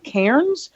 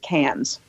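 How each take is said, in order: First: The name is pronounced the way it is spelled. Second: The name is pronounced the way Australians say it. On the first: "actually looks like Cairns" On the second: "Australians pronounce it Cairns"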